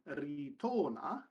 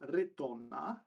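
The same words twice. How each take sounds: First: The I and O vowels are long. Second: The I and O vowels are short. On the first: The speaker calls it wrong. "rather than" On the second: The speaker calls it right. "the I should be short, as should the O"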